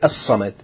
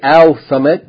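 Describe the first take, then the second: First: The l merges into a doubled s sound. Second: The l sound is pronounced before the s. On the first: The speaker calls it right. "so you say as-samad" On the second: The speaker calls it wrong. "you don't say al-samad because sa'ad is a sun letter"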